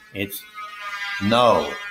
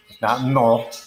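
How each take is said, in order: First: The vowel glides from one sound into another. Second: The vowel is one pure, unchanging sound. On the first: The speaker calls it right. "two vowel sounds merging with each other" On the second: The speaker calls it wrong.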